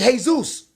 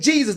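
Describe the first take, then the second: First: The name begins with an H sound. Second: The name begins with an English J sound. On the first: The speaker calls it right. "They say Jesus" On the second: The speaker calls it wrong. "They don't even say Jesus"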